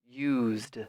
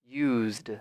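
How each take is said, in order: Both takes have the same delivery.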